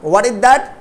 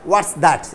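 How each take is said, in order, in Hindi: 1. शब्द 'is' एक पूरे अक्षर की तरह बोला जाता है। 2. शब्द 'is' संक्षिप्त होकर 'what's' बन जाता है।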